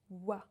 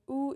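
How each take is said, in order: First: The letters are said as wa. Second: The letters are said as oo. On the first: The speaker calls it right. "it's wa, just wa" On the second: The speaker calls it wrong. "it's not ou"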